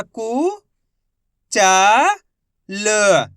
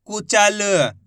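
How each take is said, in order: First: कु, चा, ल as separate drawn-out syllables; letter by letter. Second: Said in the usual way. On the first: Shown as a demonstration. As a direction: sound out कु... चा... ल, pausing after each. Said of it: "एक ही अक्षर का उच्चारण करेंगे". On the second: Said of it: "तो मिलके बन जाएगा".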